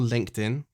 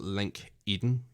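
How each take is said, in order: First: The second part sounds like 'in'. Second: The second part sounds like 'Eden'.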